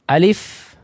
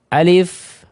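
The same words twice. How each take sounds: The two takes are said the same way.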